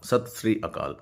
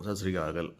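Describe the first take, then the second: First: Each word is said slowly and kept separate. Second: The words are blended into one quick word. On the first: This is the full form of the greeting. "நிறுத்தி நிதானமாக அது என்னன்னு பார்த்தா" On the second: This is the casual local way people greet each other. "நம்ம திரும்பி அ அதே வார்த்தையை திரும்பி சொல்லணும்"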